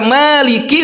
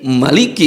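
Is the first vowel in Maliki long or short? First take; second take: long; short. First: The first vowel is held long. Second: The first vowel is kept short. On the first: "Biasanya dibaca" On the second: "alifnya harus dihilangkan"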